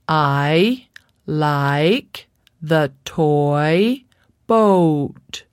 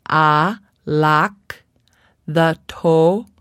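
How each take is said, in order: First: The vowels glide as full diphthongs. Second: The vowels are clipped without diphthong glides. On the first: The speaker calls it right. "We have four diphthongs" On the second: The speaker calls it wrong. "Without diphthongs, the child might say"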